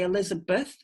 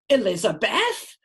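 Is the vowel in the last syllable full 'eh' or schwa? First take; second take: schwa; full eh. First: The last syllable has a weak schwa vowel. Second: The last syllable has a full 'eh' vowel. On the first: The speaker calls it right. "If you say Elizabeth, it's uh" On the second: The speaker calls it wrong. "Because we don't say Elizabeth. We'd sound really weird"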